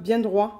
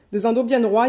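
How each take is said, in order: First: Said in the usual way. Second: Louder, leaning on "bien" in "bien droits"; "bien" held longer and hit hard; stress on bien. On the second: Shown as a demonstration. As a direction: punch "bien", then let "droits" land. Repeats it, stressing the straightness.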